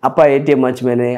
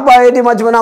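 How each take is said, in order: First: The line is spoken slowly and calmly. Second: The line is rattled off quickly. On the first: "அமைதியா தான் பேசுறேன்" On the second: "கடகடன்னு என்ன பேசுறேன்னா"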